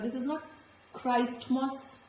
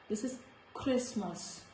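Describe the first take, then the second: First: The T sound is pronounced in the middle. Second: The T sound is silent in the middle. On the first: The speaker calls it wrong. "this is not" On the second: The speaker calls it right. "this is"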